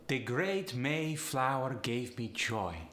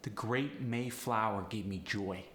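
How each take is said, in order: First: Slow Polish accent, upward inflection. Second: Said in the usual way. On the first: Shown as a demonstration. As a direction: Polish lilt lifting each diphthong. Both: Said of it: "upward inflection with these sentences".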